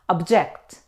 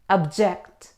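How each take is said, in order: First: The stress is on the second syllable. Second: The same.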